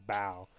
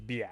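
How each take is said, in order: First: The name sounds like the single word bow. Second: The name has a 'bee' glide before 'ow'. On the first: The speaker calls it wrong. "I said bow" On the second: The speaker calls it right. "but it's biao"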